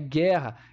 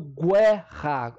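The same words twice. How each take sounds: First: No u sound is heard after the g. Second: A u sound is heard after the g. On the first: The speaker calls it right. "é guerra" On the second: The speaker calls it wrong. "eu não estou falando guerra"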